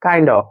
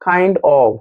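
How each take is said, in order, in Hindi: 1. शब्द मिलकर एक छोटा, घिसा हुआ शब्द बन जाते हैं। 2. दोनों शब्द अलग-अलग और पूरी तरह बोले जाते हैं। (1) "they say" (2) "They don't say"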